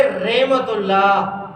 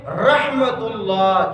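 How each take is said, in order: First: رحمت اللہ as "RAY-matullah"; common mispronunciation. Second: رحمت اللہ slowly as "RAH-matullah"; correct pronunciation. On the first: Retold or imitated. Teacher mimicking what people call it, common mispronunciation. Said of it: "جس کو لوگ کہتے ہیں". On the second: Shown as a demonstration. Teacher giving the proper form, correct pronunciation. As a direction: open "a" and clear h in رحمت اللہ. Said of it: "صحیح تلفظ ہے".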